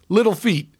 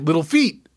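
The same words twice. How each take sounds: First: The stress is on the first word. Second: The stress is on the second word. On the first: "I always emphasize the first word" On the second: "And other people say"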